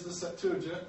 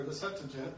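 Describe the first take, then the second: First: "Septuagint" said sep-TOO-a-jint. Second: "Septuagint" said SEP-tuh-jint. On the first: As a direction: give "Septuagint" a clear "too" in the middle. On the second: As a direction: reduce the middle of "Septuagint" to a quick "tuh". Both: Shown as a demonstration. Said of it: "depending on how you want to pronounce it".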